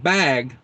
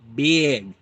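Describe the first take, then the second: First: The vowel is an open, standard 'a' sound. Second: The vowel is raised, Minnesotan style, like 'beg'. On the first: "Instead of saying bag" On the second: "Minnesotans say big"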